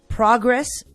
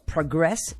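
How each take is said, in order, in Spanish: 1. El acento está en la primera sílaba. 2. El acento está en la segunda sílaba. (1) "es sustantivo" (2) "es un verbo en acción"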